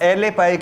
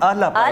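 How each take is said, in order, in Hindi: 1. पहला शब्द 'eh' स्वर पर खत्म होता है। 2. पहला शब्द 'ah' स्वर पर खत्म होता है। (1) "एले पाए की नहीं"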